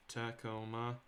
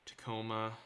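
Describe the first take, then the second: No difference in how they are said.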